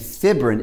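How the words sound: The word is said the British way. "the British version"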